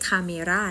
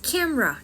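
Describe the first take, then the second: First: The word is said with three syllables. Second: The word is said with two syllables. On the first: The speaker calls it wrong. "ไม่ใช่" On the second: The speaker calls it right. "มี2 พยางค์เท่านั้นนะ"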